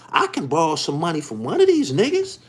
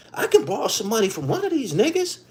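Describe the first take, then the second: First: Said in the usual way. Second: Repeated higher, leaning on "can"; emphatic repeat. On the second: Shown as a demonstration. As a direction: hammer it home the second time, pitch up on "can".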